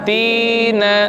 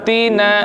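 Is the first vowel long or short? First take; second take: long; short. First: The first vowel is held long. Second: Both vowels are short. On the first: "karena ada ya sukun sebelumnya kasrah" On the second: "Begitu juga yang tina, sama ya"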